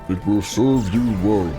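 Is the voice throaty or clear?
throaty. It is said with a throaty quality.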